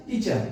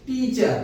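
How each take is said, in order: First: Said in the usual way. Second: teacher drawn out in two syllables; two-step syllable demo. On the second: Shown as a demonstration. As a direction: stretch teacher as "tee-cha", one beat each. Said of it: "আমরা দুই ধাপে উচ্চারণ করলাম". (Teacher দুই ধাপে টেনে, টি-চা)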